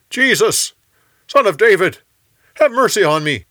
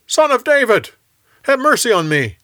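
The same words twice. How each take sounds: First: High, loud cry for help; yelling. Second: Much higher, loud desperate cry; yelling even louder. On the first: Blind beggar yells to Jesus over the crowd, loud high cry. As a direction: shout to be heard over the crowd. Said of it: "he yelled". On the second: Hushed by the crowd, the beggar cries out louder, much higher. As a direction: shout it out above everyone, louder still. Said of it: "he yelled even louder". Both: A narrator's reading.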